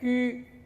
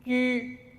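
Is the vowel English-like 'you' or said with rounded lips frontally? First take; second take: rounded front; rounded front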